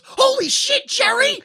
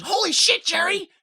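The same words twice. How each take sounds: First: Shocked, disappointed scream, very high and loud; Goldilocks. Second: Disappointed follow-up scream, high but less piercing; mock yell tinged with disappointment; Goldilocks. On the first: Retold or imitated. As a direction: shriek it in shocked dismay. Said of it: "shocked but disappointed scream where she goes". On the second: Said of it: "follows it up with her disappointment".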